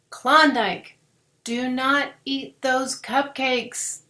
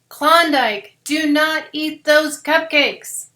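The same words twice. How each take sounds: First: It is said at normal volume. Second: It is said a little louder.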